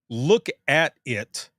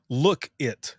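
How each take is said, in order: First: The word 'at' is clearly said. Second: The word 'at' is left out. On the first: "instead of saying" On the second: "they leave the "at" out"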